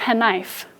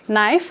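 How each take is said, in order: First: The word starts with a k then n sound. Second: The word starts with an n sound only. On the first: This is how the word was said long ago. "It used to be knife" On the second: This is how the word is said today. "Instead of knife"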